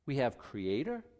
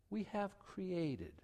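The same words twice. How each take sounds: First: Said in the usual way. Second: We have created said much softer and slow; created said much softer, slowly; dropped low and soft. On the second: Shown as a demonstration. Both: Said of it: "I'm bringing my hands down lower for a reason".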